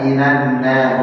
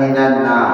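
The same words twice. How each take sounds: First: The word sounds thin and light. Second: The word sounds thick and heavy. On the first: The speaker calls it right. "nun tipis" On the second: The speaker calls it wrong. "bukan minanna. Ya, jadi tebal nanti"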